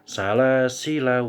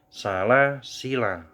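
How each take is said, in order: First: The final vowel is cut short. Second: The final vowel is held long. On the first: The reader continues into the next word. "maka la-nya dibaca pendek" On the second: The reader stops after this word. "la-nya panjang semua"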